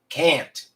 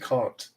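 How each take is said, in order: First: The vowel in can't sounds American. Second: The vowel in can't sounds British. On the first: The speaker calls it right. "instead of can't" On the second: The speaker calls it wrong. "you say can't"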